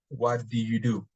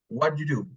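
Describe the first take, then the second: First: Every word of the phrase is said. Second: The phrase is contracted, dropping sounds.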